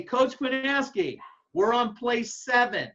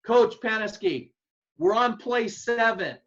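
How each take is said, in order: First: Slow, raised call with a loaded meaning; mock yell. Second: Called out slow and raised, like across a practice field; mock yell. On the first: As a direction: call it out like a coded signal. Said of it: "If I say". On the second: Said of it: "If I yell at you and say".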